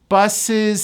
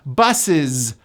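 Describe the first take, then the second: First: The word ends with an s linked onward. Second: The word ends with a voiced z sound. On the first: "that Z sound becomes an S" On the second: "it's pronounced as a voiced Z"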